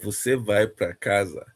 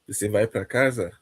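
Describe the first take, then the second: First: It is said as a statement. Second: It is said as a question.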